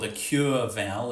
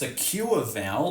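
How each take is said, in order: First: The vowel sounds like a gliding oo-er. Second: The vowel sounds like the or vowel. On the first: This is the proper traditional form. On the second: This is the modern merged form.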